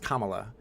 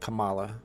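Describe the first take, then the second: First: The name is said the standard, official way. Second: The name is said like the wrestler's name. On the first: "I know it's pronounced Kamala" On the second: "so I pronounce it Kamala, like the W W F wrestler"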